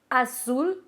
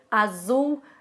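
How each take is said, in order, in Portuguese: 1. A consoante do meio é um s surdo. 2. A consoante do meio é um z sonoro. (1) "é tudo S" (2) "dá uma vontade muito grande de falar"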